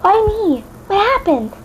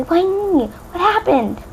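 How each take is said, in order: First: Higher, more anxious redo; Fluttershy asking Twilight, frantic and much higher. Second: Higher, anxious questions; Fluttershy asking Twilight, frantic and higher. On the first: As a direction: push the panic further up. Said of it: "my voice is slightly cracking". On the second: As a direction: plead for answers. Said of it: "asked frantically". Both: A narrator's reading.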